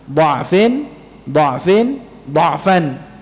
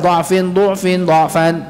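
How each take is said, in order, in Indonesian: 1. Ketiga kata memakai vokal pertama yang terbuka. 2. Kata tengah beralih ke vokal pertama yang dibulatkan. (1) "maka ini semua dengan fathah" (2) "Tidak asal ... Acak, itu tidak"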